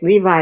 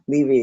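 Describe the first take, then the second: First: The name ends with an 'eye' sound. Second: The name ends with an 'ee' sound. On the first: It names a brand of jeans. The speaker calls it wrong. "Levi is a brand of jeans" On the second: It names the person. The speaker calls it right. "Levy is how you say the name"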